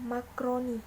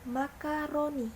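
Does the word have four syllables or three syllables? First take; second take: three; four. First: It is said with three syllables, mak-ro-ni. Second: It is said with four syllables, ma-ka-ro-ni. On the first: The speaker calls it wrong. "lafal tidak bakunya" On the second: The speaker calls it right. "Lafal bakunya"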